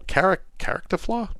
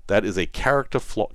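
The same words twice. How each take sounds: First: "character flaw?" repeated higher, testing the sound; re-say "character flaw" as a question, listening to the vowels; checking own pronunciation. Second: Boston accent. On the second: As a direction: let a Boston accent creep into "character flaw". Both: Real, not acted. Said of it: "that's my Boston accent sneaking in".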